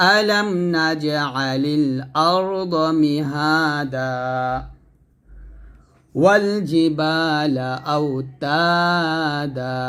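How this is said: There is a stop after mihada. "তো আমি থেমে পড়ি"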